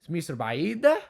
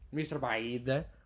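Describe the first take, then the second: First: The pitch rises at the end. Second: The pitch falls at the end. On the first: It asks whether Egypt is far. "Is Egypt far?" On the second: It states that Egypt is far. "Yeah, it's far. Egypt is far"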